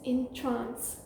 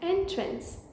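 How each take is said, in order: First: The stress is on the second syllable. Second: The stress is on the first syllable. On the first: It is a verb meaning to mesmerize. "which means to mesmerize" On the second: It is a noun meaning a doorway. "which means a doorway"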